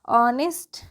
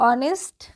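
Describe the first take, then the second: No difference in how they are said.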